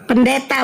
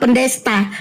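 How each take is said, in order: First: The word has no s sound before the t. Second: The word has an s sound before the t. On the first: The speaker calls it right. "Pendeta bukan pendesta" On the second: The speaker calls it wrong. "bukan pendesta"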